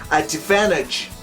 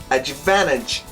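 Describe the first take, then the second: Both takes have the same delivery.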